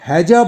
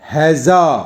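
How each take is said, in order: First: The second syllable starts with a j sound. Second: The second syllable starts with a z sound. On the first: It means war or a fight. "अगर हम हैजा बोलते हैं" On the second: It means a disease causing severe watery diarrhea. "जब हम जा के नीचे एक डॉट लगा देते हैं"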